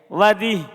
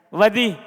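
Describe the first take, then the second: No difference in how they are said.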